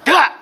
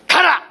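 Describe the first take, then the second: First: Sharp command, pitched up and louder; a sudden mock order to go; driving shout. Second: A sharper mock command to leave; stronger driving shout. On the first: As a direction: shove the doubt away with one word. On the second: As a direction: order the doubt off for good. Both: Driving the doubt away.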